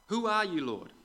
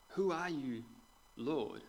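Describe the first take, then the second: First: High, loud startled question; startled cry. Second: Said in the usual way. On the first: Acted. Saul on the ground calls to the voice, startled loud. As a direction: blurt it out, thrown to the ground. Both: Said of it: "Hang on a second".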